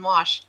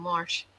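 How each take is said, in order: First: Said in the usual way. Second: "Wash" said as warsh; intrusive R. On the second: Retold or imitated. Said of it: "there's no R in Wash".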